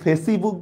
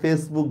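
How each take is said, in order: First: An extra 'i' vowel sounds between face and book. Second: No vowel sounds between face and book. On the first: The speaker calls it wrong. "এখানে কি ইর উচ্চারণ হয়? হয় না।" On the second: The speaker calls it right. "হয় না।"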